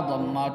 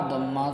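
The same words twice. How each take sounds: Both takes have the same delivery.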